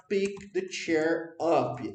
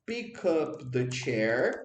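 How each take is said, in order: First: Slow, deliberate teacher model; slow model phrase. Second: Slow, careful teacher model; slow model phrase. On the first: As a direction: spell it out for the class. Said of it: "ou você pode falar". (frase modelo bem devagar) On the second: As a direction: lay it out slowly for students. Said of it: "você pode tanto falar assim". (frase modelo lenta e clara) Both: Shown as a demonstration.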